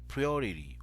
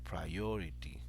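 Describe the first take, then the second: First: The stress is on the first syllable. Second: The stress is on the middle syllable. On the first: The speaker calls it wrong. "give a stress to the first syllable of the word" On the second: The speaker calls it right. "the stress goes in the middle"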